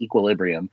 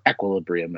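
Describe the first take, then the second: First: The word is said in its everyday pronunciation. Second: The word is said in the film's pronunciation.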